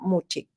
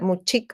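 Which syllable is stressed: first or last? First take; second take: first; last. First: The stress is on the first syllable. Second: The stress is on the last syllable. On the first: It reflects the likely original Mochica stress. The speaker calls it right. "muy probablemente en el mochica el acento era en la anterior" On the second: It reflects Spanish influence. The speaker calls it wrong. "muchic va a ser más la influencia del castellano"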